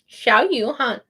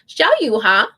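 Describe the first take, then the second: First: The name ends with a clear n sound. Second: The name ends on a vowel, no n.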